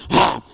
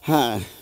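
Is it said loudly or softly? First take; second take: loudly; softly. First: It is said loudly and aggressively. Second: It is said softly and calmly.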